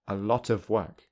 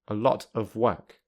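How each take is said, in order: First: The words are linked smoothly together. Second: The words are said separately without linking. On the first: "secondly with linking" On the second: "firstly without linking"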